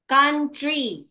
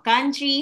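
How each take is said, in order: First: "country" split into two distinct beats; syllable by syllable. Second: Said in the usual way. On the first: Shown as a demonstration. Teacher giving two-syllable example, "country" syllable by syllable. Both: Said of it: "country has two syllables".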